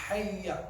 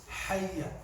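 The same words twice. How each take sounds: The two takes are said the same way.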